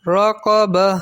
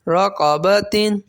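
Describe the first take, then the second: First: The word ends in an h sound, no n. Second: The word ends with a t and n sound.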